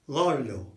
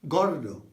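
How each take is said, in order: No difference in how they are said.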